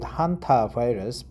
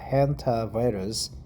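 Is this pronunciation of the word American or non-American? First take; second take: non-American; American. First: The word is said in a non-American way. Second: The word is said in an American way. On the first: "We call it hantavirus" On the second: "the American uh, pronunciation"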